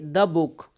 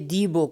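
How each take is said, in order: First: The word 'the' has a reduced schwa vowel. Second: The word 'the' has a full vowel. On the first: The speaker calls it right. "before consonant we use a weak form" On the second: The speaker calls it wrong. "now we won't say the book"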